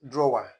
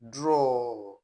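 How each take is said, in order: First: It is said with an extra final syllable. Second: It is said as one syllable, like 'draw'. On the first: The speaker calls it wrong. "it is not drawer" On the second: The speaker calls it right. "it's pronounced as draw"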